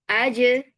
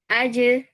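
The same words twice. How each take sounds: Both takes have the same delivery.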